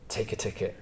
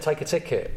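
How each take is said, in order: First: A long pause, then take a ticket said soft and flat; paused punchline. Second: Said in the usual way. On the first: Shown as a demonstration. Comedian demonstrating the pause before the punchline, soft and deadpan. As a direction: let them wait, then drop take a ticket quietly. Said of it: "if you just said ... it wouldn't be funny". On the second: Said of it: "it wouldn't be funny".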